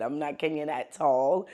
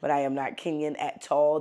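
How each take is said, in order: First: Said in the usual way. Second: Kenyan accent on not Kenyan at all. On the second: Shown as a demonstration. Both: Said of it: "This is how Kenyans say it".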